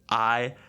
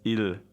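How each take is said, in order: First: It sounds like English 'I', with no L. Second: It ends with a clear L sound. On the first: The speaker calls it wrong. "I don't know how you would pronounce this, maybe like I" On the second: The speaker calls it right. "but it's il"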